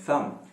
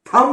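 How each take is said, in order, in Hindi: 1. इसकी शुरुआत जीभ को दांतों के बीच रखकर बोली जाने वाली नरम th आवाज़ से होती है। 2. इसकी शुरुआत एक कड़ी, एस्पिरेटेड t आवाज़ से होती है। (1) "इसको थम कहते हैं" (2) "थम नहीं"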